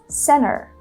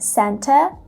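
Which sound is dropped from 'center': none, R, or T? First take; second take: T; R. First: The T after N is dropped completely. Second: The T is pronounced but the R is dropped. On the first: "she drops the T sound completely" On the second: "without pronouncing the letter R"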